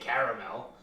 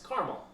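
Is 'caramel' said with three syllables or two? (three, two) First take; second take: three; two. First: It is said with three full syllables. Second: The middle syllable is dropped, two syllables. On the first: The speaker calls it wrong. "You don't have to say caramel" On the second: The speaker calls it right. "You don't have to pronounce all the letters in a word"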